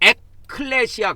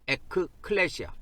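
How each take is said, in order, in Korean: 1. 한 단어로 합쳐서 말해요. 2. 두 개의 나뉜 부분으로 말해요. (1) "발음을 할 때는 이 크 발음을 밑에다 넣어가지고" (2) "교회에는 단어가 두 개로 합해져 있습니다"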